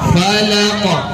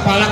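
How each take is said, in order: First: The final consonant is released with a bounce. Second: The final consonant stops flat without a bounce. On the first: "Kenapa dipantulin?" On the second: "Kenapa nggak falak saja?"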